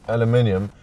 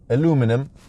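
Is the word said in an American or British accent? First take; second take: British; American. First: It is said the British way. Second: It is said the American way.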